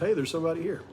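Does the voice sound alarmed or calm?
calm. It is said in a calm, casual voice. Someone is simply noting a presence. The speaker calls it right. "Maybe it was just"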